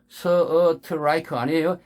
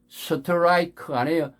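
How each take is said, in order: Both takes have the same delivery.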